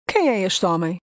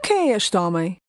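Both takes have the same delivery.

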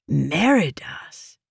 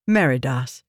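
First: Drawn-out, slow name; slow, brooding. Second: Said in the usual way. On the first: A narrator's reading. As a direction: dwell on the name slowly. Slow inner dread.

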